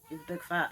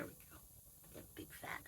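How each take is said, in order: First: Said in the usual way. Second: Whispered to the pet; soft whisper to the animal. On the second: Real, not acted. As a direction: breathe it out unvoiced.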